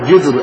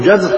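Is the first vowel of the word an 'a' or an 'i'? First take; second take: i; a. First: The first consonant is followed by an i vowel. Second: The first consonant is followed by an a vowel. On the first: "بالجيم المكسورة" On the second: "أو المفتوحة"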